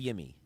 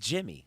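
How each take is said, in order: First: The name begins with a Y sound. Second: The name begins with a J sound. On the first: The speaker calls it wrong. "even though it's a Y" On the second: The speaker calls it right. "you pronounce that as a J"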